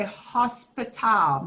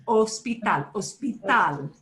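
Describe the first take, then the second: First: "hospital" with a sounded English H at the front; the learner's slip, "hospital" starting with H. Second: Spanish "Hospital" starting straight on the O, H silent; corrected "Hospital", stressed on the last syllable. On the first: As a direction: mistakenly breathe an H onto the Spanish "hospital". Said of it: "this is where you wanna say hospital". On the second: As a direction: say "Hospital" as os-pee-TAL, no H. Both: Shown as a demonstration.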